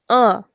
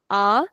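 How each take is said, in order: First: A sounded through the nose; nasalised a, as with a tilde; nasal vowel. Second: Said in the usual way. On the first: Shown as a demonstration. Teacher repeats the change, nasal a. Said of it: "nasal sound". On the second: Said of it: "becomes a".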